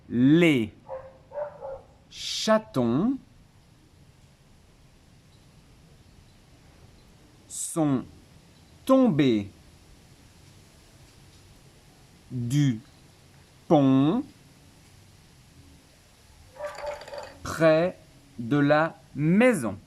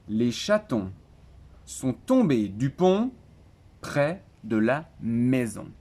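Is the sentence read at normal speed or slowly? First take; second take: slowly; normal. First: The sentence is read slowly and calmly. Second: The sentence is read at a normal pace. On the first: "je la dirai calmement" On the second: "Je dis une fois la phrase en entière"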